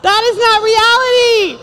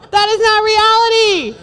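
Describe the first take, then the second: No difference in how they are said.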